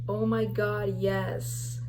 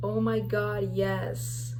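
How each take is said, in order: First: The vowels and s sound are drawn out. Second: The same.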